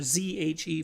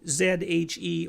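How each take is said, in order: First: The letter Z is said the American way. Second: The letter Z is said the non-American way.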